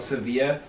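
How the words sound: The name is said the Spanish way. This is how people from Spain say it. "the locals, people from Spain call it"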